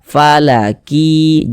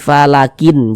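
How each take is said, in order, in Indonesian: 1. Bunyi n di akhir melebur ke bunyi berikutnya. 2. Bunyi n di akhir diucapkan dengan jelas. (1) "Kita baca falaki" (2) "jangan dibaca fala falakin falakin"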